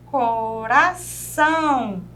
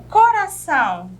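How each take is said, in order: First: Coração said very slowly, leaning hard on -ção; stress on -ção. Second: Said in the usual way. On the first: Shown as a demonstration. Teacher to students, slowly stressing the last syllable. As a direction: draw out coração and punch the -ção. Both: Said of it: "Viu que a gente pronuncia com mais força?".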